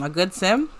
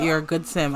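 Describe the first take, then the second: First: "A good sim?" with a rising, questioning end; doubtful echo question. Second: Said in the usual way. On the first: Real, not acted. Player queries the game's praise, "A good sim?" rising sceptically. Doubts the notice just read.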